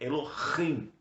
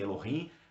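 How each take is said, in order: First: The h sound is guttural, pulled from the throat. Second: The h sound is soft, not from the throat. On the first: The speaker calls it right. "o correto no hebraico é Elohim. Então puxa lá de dentro" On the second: The speaker calls it wrong. "Nós falamos muito Elohim"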